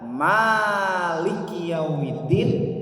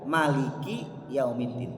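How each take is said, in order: First: The first vowel of Maliki is held long. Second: The first vowel of Maliki is kept short. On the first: Allah is the king of the Day of Judgement. "ada yang baca maknya panjang" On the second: Allah is the owner of the Day of Judgement. "ada yang baca maknya pen"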